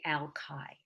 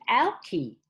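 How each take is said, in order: First: "Alki" said AL-kye, the end rhyming with eye; the way locals say "Alki", ending like eye; "Alki" with a long eye sound at the end; local pronunciation. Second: "Alki" said AL-kee, the end rhyming with key; newcomer's wrong "Alki", ending in ee; "Alki" read as spelled, last sound like key; mistaken first try. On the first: Shown as a demonstration. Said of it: "They say". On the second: Retold or imitated. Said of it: "that's not how people here say it".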